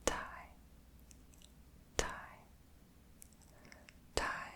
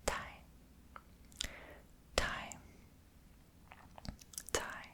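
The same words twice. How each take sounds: The two takes are said the same way.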